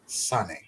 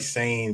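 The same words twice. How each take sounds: First: The name is said with Japanese-style vowels. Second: The name is said with English-style vowels. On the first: This follows how Japanese names are pronounced. The speaker calls it right. "the way that you know that most Japanese names are pronounced" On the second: This is how most people say it. The speaker calls it wrong. "people say Kari Sane"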